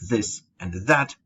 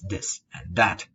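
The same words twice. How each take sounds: First: The words begin with a soft th sound. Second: The words begin with a hard d sound. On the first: "instead of this and that" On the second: "It becomes a D"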